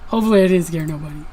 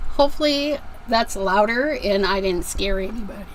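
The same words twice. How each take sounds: First: Fast, silly put-on voice rattling it off; a quick comic aside in a funny voice; jokey goofy voice. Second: Said in the usual way. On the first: Repeats line jokingly.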